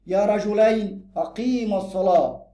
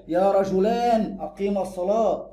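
First: Slow phrase, "رجلين" ending in -ayn; measured model reading, -ayn on "رجلين"; accusative dual ending. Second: Slow phrase, "رجلان" ending in long -aan; measured model reading, -aan on "رجلان"; nominative dual ending. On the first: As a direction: draw out "رجلين" with a clear -ayn. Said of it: "منصوب". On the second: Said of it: "يبقى مرفوع". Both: Shown as a demonstration.

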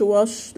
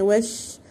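First: "وش" with dark, backed vowel; wrong heavy vowel. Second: "وش" with thin, fronted vowel; light sheen. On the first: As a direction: make "وش" heavy and round. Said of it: "ما نقولش وش". (نطق "وش" مفخمة خطأً) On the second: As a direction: keep "وش" light. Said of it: "شين مرققة". (نطق "وش" مرققة) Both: Shown as a demonstration.

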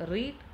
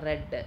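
First: റീഡ് with a long ee, drawn out; slow "reed" for റീഡ്; present-tense pronunciation. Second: റെഡ് with a short e; റെഡ് as "red", short vowel; past-tense pronunciation. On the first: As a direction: say റീഡ് slowly, rhyming with "need". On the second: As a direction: say റെഡ് to rhyme with "bed". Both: Shown as a demonstration. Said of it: "വ്യത്യസ്ത രീതിയിൽ pronounce ചെയ്യുന്നതും".

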